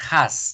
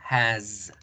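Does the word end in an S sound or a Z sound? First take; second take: S sound; Z sound. First: The word ends with a hissing S sound. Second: The word ends with a buzzing Z sound. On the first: The speaker calls it wrong. "su pronunciación no va a ser la S" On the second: The speaker calls it right. "su pronunciación va a ser la Z"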